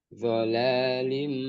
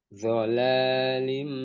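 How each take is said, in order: No difference in how they are said.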